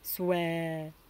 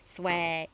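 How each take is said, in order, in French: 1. Il est prononcé comme un mot français ordinaire. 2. Il est prononcé depuis la gorge, plus serré. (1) "si je dis souhait en français, ça fait souhait" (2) "Parlez au niveau de la gorge"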